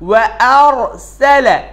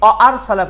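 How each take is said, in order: First: The first syllable starts with rounded lips, w. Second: The first syllable is a plain vowel without w. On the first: The speaker calls it right. "ঠোঁটটা গোল হয়ে যাবে" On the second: The speaker calls it wrong. "কিন্তু না, অ না"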